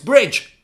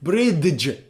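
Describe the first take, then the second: First: The d sound is left out. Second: The d sound is pronounced. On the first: The speaker calls it right. "No, it's bridge. D is silent" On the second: The speaker calls it wrong. "Why isn't it bridge?"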